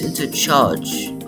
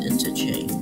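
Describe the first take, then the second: First: The word ends with a 'charge' sound. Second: The word ends with a 'change' sound. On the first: The speaker calls it wrong. "I thought it's intercharge" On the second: The speaker calls it right. "but now it's interchange"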